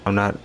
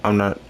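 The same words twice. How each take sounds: The two takes are said the same way.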